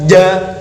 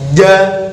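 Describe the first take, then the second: The two takes are said the same way.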